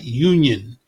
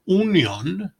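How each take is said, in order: First: The word begins with a Y glide sound. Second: The word begins with a plain vowel sound. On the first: "we say with a Y" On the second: "Leave the Y sound off in Spanish"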